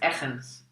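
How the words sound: The surname is pronounced with Dutch sounds. "which is the Dutch way to pronounce it"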